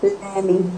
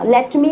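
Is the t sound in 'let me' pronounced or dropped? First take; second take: dropped; pronounced. First: The t drops, giving 'lemme'. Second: It is said in full with the t sound. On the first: "लेट मी में टी हट गया" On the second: "लेट मी में टी हट गया"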